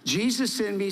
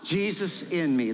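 First: It is said at normal speed. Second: It is said slowly and deliberately.

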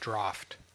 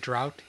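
First: The word ends with an 'f' sound. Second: The word ends with a 't' sound. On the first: The speaker calls it wrong. "He said draft" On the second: The speaker calls it right. "He didn't say drought"

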